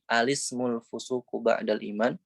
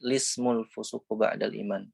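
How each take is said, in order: First: It begins with an a vowel before l. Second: It begins directly with the l sound. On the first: The reading starts from the connecting hamza. "kita memulai dari hamzah wasalnya" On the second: The reading starts from the original lam. "langsung ke lam"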